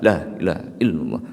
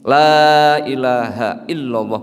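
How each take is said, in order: First: The vowel in the first word is cut short. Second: The vowel in the first word is held long. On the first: Truly there is a god besides God. The speaker calls it wrong. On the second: There is no god but God. The speaker calls it right. "panjang lahnya"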